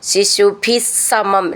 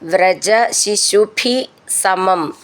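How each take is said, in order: First: The words are joined with a doubled s sound. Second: The two words are said separately.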